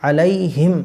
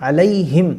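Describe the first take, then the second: Both takes have the same delivery.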